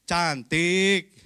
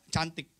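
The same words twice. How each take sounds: First: Louder, offhand compliment; insincere answer. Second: Sincere answer. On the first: Husband answering his wife's question in an insincere, louder tone. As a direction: say it as if you don't mean it. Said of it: "Itu nggak tulus". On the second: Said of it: "Tapi jawabnya yang tulus". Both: Shown as a demonstration.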